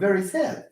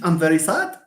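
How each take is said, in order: First: Sad is said with the open air vowel. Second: Sad is said with a different vowel. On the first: The speaker calls it right. "it's very sad" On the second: The speaker calls it wrong. "is it I'm very sad? No"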